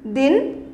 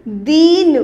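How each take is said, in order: First: दिन with a short, light i; दिन, छोटी इ, हल्का और छोटा; short i, soft. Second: दीन with a long, louder ee; दीन, लंबा और ज़ोर से ई; long ee, stressed. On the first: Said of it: "थोड़ा सा धीरे बोलना". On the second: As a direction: stretch and push the ee in दीन. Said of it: "थोड़ा सा ज़ोर की बोलेंगे". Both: Shown as a demonstration.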